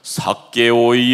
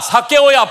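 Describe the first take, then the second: First: The name is called in a booming, echoing voice. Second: The name is called in a rough, harsh shout. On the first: The caller speaks with grand authority. "이게 막 울림이 있다" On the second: The caller looks down on him. "뭐 이런 식으로 내가 불렀을까?"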